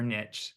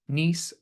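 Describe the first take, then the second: First: The word rhymes with itch. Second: The word rhymes with peace. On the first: "or do you pronounce it rhyming with itch" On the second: "Do you pronounce it rhyming with peace"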